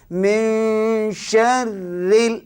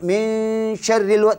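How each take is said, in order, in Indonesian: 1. Frasa itu diucapkan pelan, bunyi demi bunyi. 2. Frasa itu diucapkan cepat dan terburu-buru. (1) "jangan cepat. ... Satu-satu bacaannya" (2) "Dia cepat"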